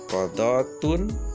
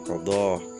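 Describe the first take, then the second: First: The word ends with a full -tun ending. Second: The word ends with a soft h sound. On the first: The word is read in connected speech. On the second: The reader stops on the word.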